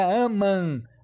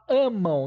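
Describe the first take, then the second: First: The word ends in a plain nasal vowel. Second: The word ends in a nasal diphthong, like 'amão'. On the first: The speaker calls it wrong. "não é amam" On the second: The speaker calls it right. "Você fala amam"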